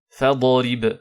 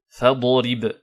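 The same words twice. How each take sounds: No difference in how they are said.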